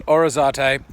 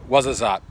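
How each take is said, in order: First: "Orizate" said slowly, opening on "or"; wrong pronunciation. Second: "Ouarzazate" said waz-uh-zat; correct pronunciation. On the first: Host showing viewers the mistake, "Orizate" with an "or" opening. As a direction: give the mistaken "Orizate", starting with "or" rather than "waz". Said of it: "not Orizate". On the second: Host repeating the correction for viewers, "Ouarzazate" as waz-uh-zat. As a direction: open "Ouarzazate" with "waz", end on a short "zat". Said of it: "it's actually pronounced Ouarzazate". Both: Shown as a demonstration.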